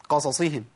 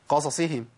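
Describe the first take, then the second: The two takes are said the same way.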